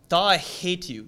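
It is said with strong, forceful anger.

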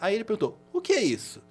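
The pitch starts rising early in the question.

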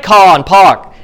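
It is said in a Boston accent. This is how people from Boston say it. "that's the way they say car and park in Boston"

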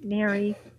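It sounds let down and disappointed. The speaker is let down by the person.

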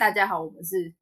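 The voice is pitched low.

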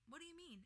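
The question is asked in a kind tone. The speaker is sincerely asking. The speaker calls it right. "that sounds kind"

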